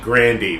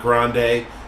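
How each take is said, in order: First: The name ends with an 'ee' sound. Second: The name ends with an 'ay' sound. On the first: The speaker calls it right. "it's actually Grandy" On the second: The speaker calls it wrong. "It's not Grande"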